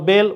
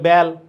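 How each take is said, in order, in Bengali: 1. স্বরধ্বনিটি প্রমিত মধ্য 'e' ধ্বনি। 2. স্বরধ্বনিটি আরও খোলা আঞ্চলিক ধ্বনি। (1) "বলবা বেল" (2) "ওরা বলবে বেল"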